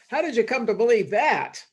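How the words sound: The question sounds harsh and judgmental. The asker disapproves of the belief. "That's very judgmental"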